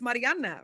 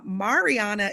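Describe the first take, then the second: First: The R in the name is rolled. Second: The R in the name is not rolled. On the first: The speaker calls it right. "Why you rolling the R in your name" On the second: The speaker calls it wrong. "is how I used to say it"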